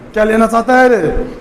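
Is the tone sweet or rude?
rude. It is said roughly and rudely.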